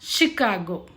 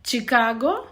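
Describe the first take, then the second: First: It begins with a sh sound. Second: It begins with a ch sound. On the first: The speaker calls it right. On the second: The speaker calls it wrong. "చికాగో కాదు"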